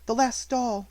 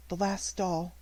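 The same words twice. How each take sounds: First: Higher, strange mournful voice; grieving child repeating herself; mournful, odd. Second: The orphan looking at her last doll; mournful. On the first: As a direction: let it sound oddly hollow. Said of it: "little mournful voice had an odd sound". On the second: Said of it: "little mournful voice". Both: A narrator's reading.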